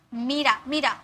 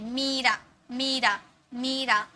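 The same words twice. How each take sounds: First: मीरा said quickly as "mira", short i; short vowel. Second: मीरा said as "meeeera", softer, long ee; long vowel. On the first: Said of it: "मीरा बोल रहे क्या?". (मीरा में छोटी इ, यानी मिरा) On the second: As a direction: stretch the ee in मीरा. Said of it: "थोड़ा लंबा में साउंड आ रहा ना". (मीरा में लंबी ई खींचकर) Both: Shown as a demonstration.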